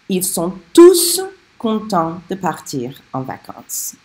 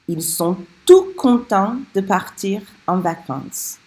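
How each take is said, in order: First: The final S of tous is pronounced. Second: The final S of tous is silent.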